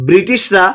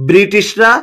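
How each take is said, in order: The two takes are said the same way.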